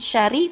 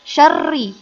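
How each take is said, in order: First: The r sound is short and single. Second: The r sound is doubled and lengthened. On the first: The speaker calls it wrong. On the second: The speaker calls it right. "ada tasydid"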